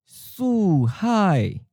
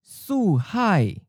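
First: It is said slowly and carefully. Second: It is said at a natural, normal speed. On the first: "and then slowly" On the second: "First natural speed"

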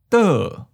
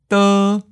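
First: The pitch starts high and falls. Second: The pitch stays high and level. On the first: "Second tone, high falling" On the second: "First tone, high flat"

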